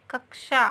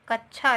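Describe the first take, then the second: First: कक्षा said as kaksha with ksh; कक्षा with a clear ksh cluster; correct pronunciation. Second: कक्षा said as kachchha with a ch sound; कक्षा mispronounced with chh in the middle; wrong common pronunciation. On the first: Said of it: "लेकिन सही क्या है?". (कक्षा को क्ष के साथ साफ़ बोलें) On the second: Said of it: "बोलते हैं ना". (कक्षा को "कच्छा" की तरह बोलें) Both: Shown as a demonstration.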